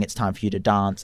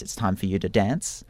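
First: "dance" with a long ah, as "dahnce". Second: "dance" with a short flat a, as in "ant". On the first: Retold or imitated. Actor quoting her own way of saying the line, long-a dance. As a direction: say "dance" with the broad vowel of "father". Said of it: "it's easier if you say dance". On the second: Shown as a demonstration. Actor quoting the show's line, short-a dance.

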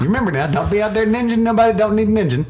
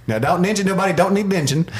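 First: Very high, loud, fast slurred hillbilly voice; drunken hillbilly imitation. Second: Drunken hillbilly imitation. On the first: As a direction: go even higher, hamming up the drunk hillbilly. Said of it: "drunken hillbilly guy". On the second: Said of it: "drunken hillbilly guy he's like".

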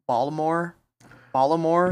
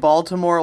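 First: Baltimore with the T dropped, like "Ballamore"; local pronunciation. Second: Said in the usual way. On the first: Shown as a demonstration. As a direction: say "Baltimore" local-style, swallowing the T. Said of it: "they say Baltimore like". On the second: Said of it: "They don't even say the T".

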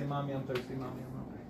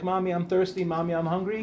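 First: Put-on much softer, as if echoing a longed-for child; wistful hush. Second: Said in the usual way. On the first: Childless woman at the park wishing for a child, barely audible. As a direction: breathe the words like a private longing.

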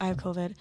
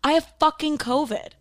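First: Quietly stunned, under the breath. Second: Higher, louder frustrated outburst; exasperated yell. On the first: Telling friend quietly. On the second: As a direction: blurt it out at him. Yelling news at dad. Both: Retold or imitated.

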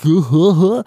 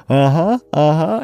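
First: Higher, put-on mocking uh-huh; mocking mimicry. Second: Rising, questioning uh-huhs with a hint of a smile; imitated smiling uh-huh. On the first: Host imitating the man mocking the woman, mocking echo. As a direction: mimic her uh-huhs in a silly raised voice. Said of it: "he, like, mocks her". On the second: Host imitating the smiling woman in the scene, eager uh-huh. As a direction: lightly imitate a coy, smiling yes, rising at the end. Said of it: "like, smiles and, like, she's like".

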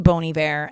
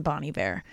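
First: Bon Iver said "BOH-nee VAIR"; Bon Iver as "bony". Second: Bon Iver said "BAH-nee VAIR"; Bon Iver as "bonny". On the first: Podcaster showing how she used to say Bon Iver, as "bony vair". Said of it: "I was saying Bon Iver". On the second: Podcaster showing the lesser-liked way to say Bon Iver, as "bonny vair". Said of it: "which sounds much better than". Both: Shown as a demonstration.

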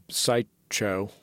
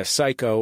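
First: "Psycho" split as "Psy-Cho", second part like the surname Cho; split pronunciation. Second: Said in the usual way. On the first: Shown as a demonstration. Interviewer asks how the special's title is said, "Psycho" split into Psy-Cho. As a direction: say "Psycho" as two separate words, "Psy" and "Cho". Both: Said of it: "Is there a correct pronunciation?".

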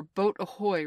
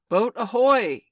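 First: Moderately raised sea captain's call; slightly higher, louder seaman's call; ringing hail. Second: Full, high, very loud sea captain's shout; big carrying seaman's holler; ringing hail. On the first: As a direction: hail the boat from the water. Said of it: "rang over the lagoon in Hook's voice". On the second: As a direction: bellow it across the lagoon. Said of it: "came the voice again". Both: A narrator's reading.

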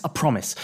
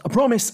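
First: Said in the usual way. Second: Mock promise. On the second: Shown as a demonstration.

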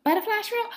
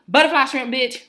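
First: Very high, puzzled imitation of the worker; mock clueless question. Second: Loud, high, emphatic retort; irate correction. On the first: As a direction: squeak it back as a baffled question. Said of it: "she gonna look at me". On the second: Retold or imitated. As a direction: fire it back loudly, fed up. Snapping correction back at worker.

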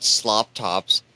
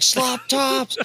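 First: Said in the usual way. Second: High-pitched imitation of a yell; retold yell. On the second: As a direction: yell it out in a much higher voice, imitating him. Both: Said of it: "he yelled".

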